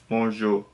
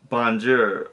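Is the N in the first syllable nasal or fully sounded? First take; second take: nasal; fully sounded. First: The first syllable is nasal with no full N. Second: The N is fully sounded and emphasized. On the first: The speaker calls it right. "you kind of pronounce it with your nose" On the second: The speaker calls it wrong. "they put a lot of emphasis on the letter N"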